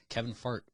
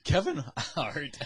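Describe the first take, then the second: First: Fart with an F where Hart is meant; slip of the tongue. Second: Hart with an H, drawn out slowly; slow, higher correction landing on Hart; corrected name. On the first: Co-host fumbles a comedian's name mid-argument, slip to Fart. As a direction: accidentally say Fart for the surname Hart. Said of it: "Did you say Kevin Fart?". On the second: Co-host corrects the slip to friends, Hart said slowly. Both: Real, not acted.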